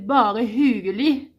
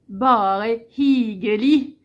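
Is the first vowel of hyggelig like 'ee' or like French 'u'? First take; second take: French u; ee. First: The first vowel of hyggelig sounds like French 'u'. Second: The first vowel of hyggelig sounds like 'ee'. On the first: The speaker calls it right. "c'est un y" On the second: The speaker calls it wrong. "c'est pas un i"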